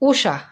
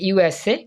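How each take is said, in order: First: It is said as one two-syllable word. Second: It is said as three separate letters. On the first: The speaker calls it wrong. "যখন আমরা full stop বাদ দিয়ে উচ্চারণ করি তখন উচ্চারণটা হয় উষা" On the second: The speaker calls it right. "যখন ফুল স্টপ থাকে তখন উচ্চারণটা হয় ইউএসএ"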